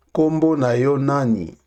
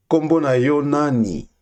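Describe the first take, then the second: No difference in how they are said.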